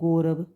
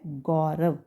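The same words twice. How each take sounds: First: The first vowel is a plain 'o'. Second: The first vowel is an 'au'. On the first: The speaker calls it wrong. "लोग क्या करते हैं, बोलते हैं गौरव" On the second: The speaker calls it right. "सही शब्द क्या है, गौरव ... औ की मात्रा"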